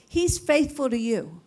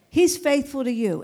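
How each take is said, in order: First: Said in the usual way. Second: Louder repeat. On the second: Shown as a demonstration. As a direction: say He's faithful to you again, louder and firmer. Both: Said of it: "repeated with more force".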